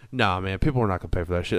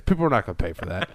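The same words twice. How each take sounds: First: Said in the usual way. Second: Fast, lightly voiced mock Superhuman; imitating Superhuman. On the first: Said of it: "People goes". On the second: Retelling Superhuman's live video, a quick lightly put-on Superhuman voice. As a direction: rattle it off as a quick dismissive Superhuman impression. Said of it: "This is what Superhuman's saying".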